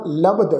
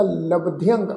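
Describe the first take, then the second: First: ਲਬਧ said short without nasal; short form. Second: ਲਬਧਿਅੰਗ with added ਿਅੰਗ nasal ending; long nasal form. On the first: Teacher gives the congregation the short reading ਲਬਧ. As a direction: clip ਲਬਧ, no ending. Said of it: "ਮੈਂ ਇੱਥੇ ਉਚਾਰਨ ਕਰ ਰਿਹਾ". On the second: Teacher gives the congregation the long reading ਲਬਧਿਅੰਗ. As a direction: stretch ਲਬਧਿਅੰਗ with nasal close. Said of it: "ਇਸ ਦਾ ਉਚਾਰਨ ਹੋਏਗਾ". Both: Shown as a demonstration.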